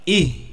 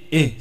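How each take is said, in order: First: The vowel sounds like a close 'i'. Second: The vowel sounds like an open 'e'. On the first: The speaker calls it right. "Ih, bukan eh" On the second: The speaker calls it wrong. "bukan eh, eh, salah"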